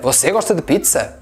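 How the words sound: It ends rising, like a question.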